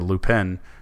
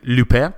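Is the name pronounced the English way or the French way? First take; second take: English; French. First: The name is said with an English pronunciation. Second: The name is said with a French pronunciation. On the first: The speaker calls it wrong. "when I say it in English and say Lupin" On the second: The speaker calls it right. "I use my best French accent"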